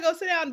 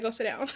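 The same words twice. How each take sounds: First: Higher, emphatic retelling of God's command; God's firm order. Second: Quiet, matter-of-fact voicing of God; God's calm order. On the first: Retold or imitated. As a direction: lift the pitch and land it like a verdict. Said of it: "I feel like God said". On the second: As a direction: deliver it softly as a settled command. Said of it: "God said".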